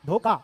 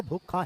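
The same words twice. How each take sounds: First: धोखा said as "dhoka", unaspirated k; common mispronunciation. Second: धोखा with an aspirated "kha"; correct pronunciation. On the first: Teacher shows how people say it, mispronounced. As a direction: drop the breath from the k of धोखा. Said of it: "बोलते हम धोखा है". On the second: Teacher gives students the proper sound, correctly pronounced. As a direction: put breath into the kh of धोखा. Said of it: "पर ये होता धोखा है". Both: Shown as a demonstration.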